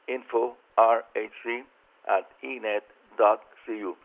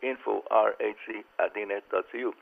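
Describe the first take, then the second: First: It is said slowly. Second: It is said at normal speed.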